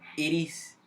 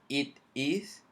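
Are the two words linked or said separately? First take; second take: linked; separately. First: The words are linked, the t sounding like r. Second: The words are said separately with a clear t. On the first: "lo puedes unir para que la pronunciación sea más fluida ... como que si la T fuese una R" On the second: "Así como yo lo digo por palabra"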